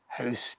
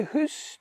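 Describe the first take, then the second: First: "house" with an ow diphthong, as in now; English ow in "house"; English pronunciation. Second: "hoose" with a long oo, as in goose; Scots pronunciation. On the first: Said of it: "maybe you need to say house". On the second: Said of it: "perfectly all right to say hoose". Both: Shown as a demonstration.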